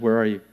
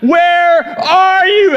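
First: It sounds sweetly coaxing, like calling a pet. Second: It is shouted angrily, like all caps.

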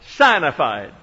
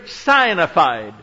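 First: The first syllable sounds like 'sign'. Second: The same.

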